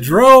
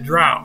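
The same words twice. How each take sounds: First: The vowel sounds like the one in 'go'. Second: The vowel sounds like the one in 'cow'. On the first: "Is it pronounced ro with a D in front?" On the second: "Is it pronounced ow with a DR in front?"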